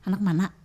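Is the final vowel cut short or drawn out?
cut short. The final vowel is cut short with a stop. "Kalau orang Banjar Kuala malah"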